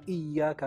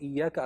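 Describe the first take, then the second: First: The y sound is doubled and held. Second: The y sound is short and single. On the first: It means only to you. The speaker calls it right. "kalau ditekankan" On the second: It means sunlight. The speaker calls it wrong. "Kalau tidak ditasydid"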